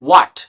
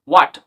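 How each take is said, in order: Both takes have the same delivery.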